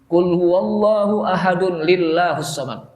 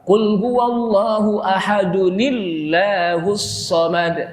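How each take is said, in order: First: 'Ahadun' stands apart, followed by a separate 'lillahus'. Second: 'Ahadun' flows directly into 'nillahus' as one run. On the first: The speaker calls it wrong. "Itu salah besar" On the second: The speaker calls it right. "Yang betul apa?"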